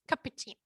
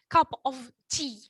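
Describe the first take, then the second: First: The words run together with a weak 'of'. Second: Each word is said separately and fully. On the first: "some of them pronounce it like" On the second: "obviously it's"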